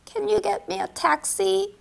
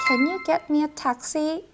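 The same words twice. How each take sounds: First: Slow second take. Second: Slow first take. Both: Shown as a demonstration. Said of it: "택시만 붙이면 되니".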